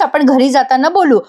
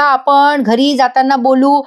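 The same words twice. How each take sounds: First: Said in the usual way. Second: Slow, deliberate irritated repeat; annoyed. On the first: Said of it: "चिडत म्हणतात". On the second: Acted. Abhimanyu sir, irritated, repeats himself to Gauri slowly. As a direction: spell it out slowly, fed up. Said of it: "Abhimanyu sir चिडत म्हणतात".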